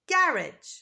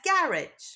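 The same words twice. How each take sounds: First: It is said in a British accent. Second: The same.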